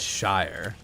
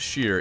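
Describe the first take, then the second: First: The vowel sounds like the word 'shire'. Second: The vowel sounds like the word 'sheer'. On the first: The speaker calls it right. "it's shire" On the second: The speaker calls it wrong. "Not sheer"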